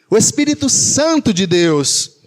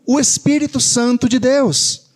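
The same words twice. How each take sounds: First: Santo punched out, then falling away; emphatic repeat with the weight on Santo; stress on Santo. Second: Said in the usual way. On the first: Real, not acted. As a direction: lean hard on the word Santo.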